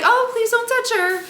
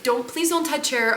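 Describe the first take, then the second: First: Very high, acted polite plea; high-pitched plea. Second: Said in the usual way. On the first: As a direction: plead in a put-on high voice. Imagined plea to the attendant.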